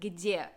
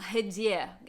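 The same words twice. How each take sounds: First: The word starts with a hard g sound. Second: The word starts with a breathy h sound. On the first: "instead of где" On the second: "Ukrainians say their g as a h"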